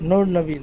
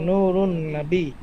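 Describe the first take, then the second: First: The two words are joined without any extra syllable. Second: An extra '-un' syllable joins the two words. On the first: This is the Persian-style form of the name. The speaker calls it wrong. "নূর নবী না" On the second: This is the Arabic form of the name. The speaker calls it right. "শব্দটা হবে হচ্ছে নুরুন নবী"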